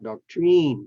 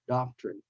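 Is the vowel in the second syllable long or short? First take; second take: long; short. First: The second syllable has a long vowel. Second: The second syllable has a short vowel. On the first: The speaker calls it wrong. "not doctrine" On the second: The speaker calls it right. "has the short sound because it's in the second syllable and the syllable is not stressed"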